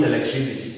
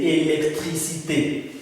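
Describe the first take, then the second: First: Electricity in English, ending in a -tee sound; English word. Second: Électricité ending in a French é; French word. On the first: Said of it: "that one means electricity". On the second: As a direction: say "électricité" the French way, final é sounded. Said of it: "So we say". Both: Shown as a demonstration.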